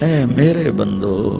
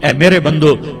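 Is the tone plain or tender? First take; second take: tender; plain. First: It is said in a warm, tender tone. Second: It is said in a plain, unaffectionate tone. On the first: It is full of love, like a mother calling her child. The speaker calls it right. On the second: It is an ordinary address. The speaker calls it wrong.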